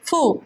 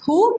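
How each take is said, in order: First: The syllable begins with a soft f-like sound. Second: The syllable begins with a plain h sound. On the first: The speaker calls it right. "It's హూ" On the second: The speaker calls it wrong. "Not హూ"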